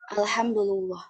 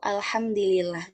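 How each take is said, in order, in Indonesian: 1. Huruf d berharakat u, huruf l berharakat u. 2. Huruf d berharakat i, huruf l berharakat i. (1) "mendomahkan dalnya dan eh, lamnya juga" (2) "mengkasrohkan huruf dalnya eh, dan eh, huruf lamnya juga"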